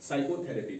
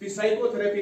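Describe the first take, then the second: First: The word begins with a silent P. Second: The word begins with a sounded P. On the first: The speaker calls it right. "तो इसको हम पढ़ेंगे साइकोथेरेपी" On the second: The speaker calls it wrong. "नहीं पढ़ सकते हैं"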